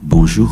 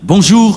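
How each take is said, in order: First: It is said in a soft, tender tone. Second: It is said in a plain, neutral tone.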